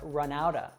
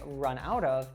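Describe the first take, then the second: First: The words run together with a reduced ending. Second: Each word is said separately and in full. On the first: The speaker calls it right. "a native would say run out of or run outta" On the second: The speaker calls it wrong. "a native wouldn't say run out of"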